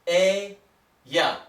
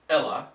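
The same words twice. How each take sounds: First: The double L is sounded like an English Y. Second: The double L is sounded like an English L. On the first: The speaker calls it right. "we pronounce it like a Y" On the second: The speaker calls it wrong. "not like an L"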